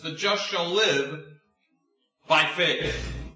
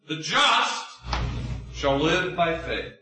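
First: The stress is on "by faith". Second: The stress is on "just".

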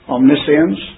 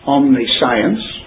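First: The word is said as one ordinary word. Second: The word is split into omni and science.

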